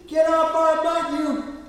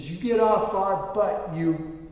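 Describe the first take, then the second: First: High, loud mock-angry child; little boy's voice. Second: Retold angry driver, restrained; mock road-rage scolding, drawn out. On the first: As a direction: imitate a small boy copying dad's yell. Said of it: "this little voice comes out". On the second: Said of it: "I'm getting angry".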